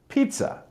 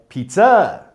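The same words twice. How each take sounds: First: The stress is not on the last syllable. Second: The stress is on the last syllable. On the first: The speaker calls it right. "whereas actually it should be" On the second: The speaker calls it wrong. "they will often say"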